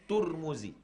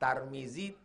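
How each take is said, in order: First: The first syllable has the vowel u. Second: The first syllable has the vowel a.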